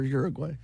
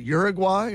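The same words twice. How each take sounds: First: URUGUAY ending like "way"; Uruguay as "gway". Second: URUGUAY ending like "why"; Uruguay as "gwai". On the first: Speaker offering the other option, Uruguay ending "gway". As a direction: say Uruguay with a "gway" last syllable. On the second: Speaker asking which is right, Uruguay ending "gwai". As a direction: say Uruguay with a "gwai" last syllable. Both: Shown as a demonstration. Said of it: "is it Uruguay or Uruguay?".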